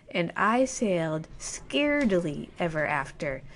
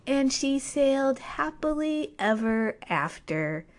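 First: Undercut the fairy tale flatly; a wry, dropping anticlimax; deadpan twist. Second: Slow, higher storybook close; slow and sweet storybook ending; fairy-tale ending. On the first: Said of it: "But this is not a fairy tale". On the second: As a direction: read it like the last line of a bedtime story. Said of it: "if this was a fairy tale". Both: Shown as a demonstration.

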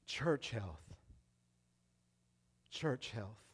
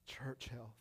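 First: "Church health" low and soft, slow with long pauses; quiet emphasis. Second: "Church health" whispered, no voice at all. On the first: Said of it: "repeated phrase fading down". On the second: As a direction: breathe "Church health" out as a hush. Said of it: "third repeat fades to whisper". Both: Shown as a demonstration.

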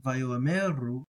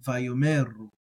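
First: Slow Vayoameru, aleph audible between o and e; aleph sounded. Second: Vayomeru with no aleph, o runs into me; aleph silent. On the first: Listen again, teacher says Vayoameru with the aleph. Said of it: "with it not silent". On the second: Teacher repeats with aleph silent, Vayomeru smooth. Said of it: "with it silent". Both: Shown as a demonstration.

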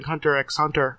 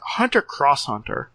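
First: "Hunter x Hunter" with x said "ex"; X read as a letter. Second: "Hunter Cross Hunter" with the X spoken as "cross"; X read as "cross". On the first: Co-host recommending an anime, pronouncing "Hunter x Hunter" with an "ex". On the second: Co-host unsure of the anime title, trying "Hunter Cross Hunter". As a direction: offer "Hunter Cross Hunter", saying cross for X. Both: Shown as a demonstration. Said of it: "or is it Hunter Cross Hunter".

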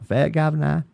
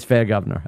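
First: Mock Australian with dropped r's on "fair governor"; put-on Australian accent. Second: Said in the usual way. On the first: Shown as a demonstration. Joking about the spouse's Australian accent, mock Australian accent. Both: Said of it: "I don't even say it with an accent".

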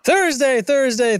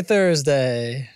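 First: High excited call. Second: Said in the usual way. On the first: Pretend. Dramatic repeated day announcement.

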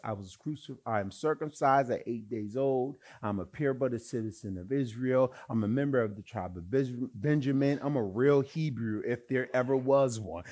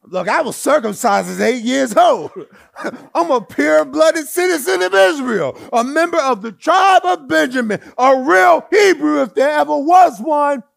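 First: Said in the usual way. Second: High, loud, shouted brag; brash boasting shout in Jason's voice. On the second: Acted. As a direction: puff up and boast at full volume. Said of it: "Let me say it in Jason's voice".

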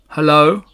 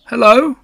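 First: Strange animal replying. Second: High, loud, rising hello; Pooh greeting. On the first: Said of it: "said the strange animal". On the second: Pooh tries another greeting at the door, high and loud. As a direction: call it out high and questioning. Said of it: "said Pooh". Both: A narrator's reading.

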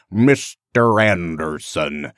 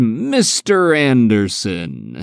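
First: Slow, low, over-enunciated Midwestern American drawl; Midwestern American accent. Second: Slow, drawn-out imitation of Agent Smith; Agent Smith impression. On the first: Retold or imitated. Fan imitating the villain's overdone Midwestern American accent, low and slow. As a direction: draw out "Mister Anderson" in an exaggerated Midwestern American accent. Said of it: "this weird kind of Midwestern American".

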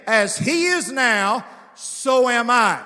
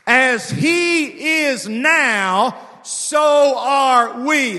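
First: Slow, loud, a bit less stretched; slower personal proclamation. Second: Very slow, loud, each word stretched; preacher stretching the verse; drawn-out proclamation. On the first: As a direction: claim it for yourself. Repeats verse personally. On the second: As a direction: let every word land. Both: Acted.

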